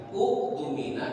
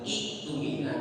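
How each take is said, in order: First: The word begins with a u and k sound. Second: The word begins with an i and k sound. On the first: "Bukan uktumina" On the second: "apalagi iktumina"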